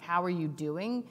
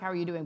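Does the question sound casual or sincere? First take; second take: sincere; casual. First: It sounds like a sincere, caring question. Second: It sounds like a quick, casual greeting.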